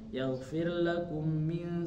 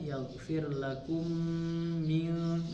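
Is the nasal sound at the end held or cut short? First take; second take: cut short; held. First: The final nasal sound is rushed and cut short. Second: The final nasal sound is held and prolonged. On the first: The speaker calls it wrong. "ini salah gitu Bu ya, karena harusnya ditahan, ini malah dilabrak aja" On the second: The speaker calls it right. "nah itu kan gunah tuh ditahan"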